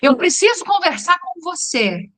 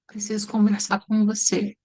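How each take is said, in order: First: It sounds angry. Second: It sounds sad.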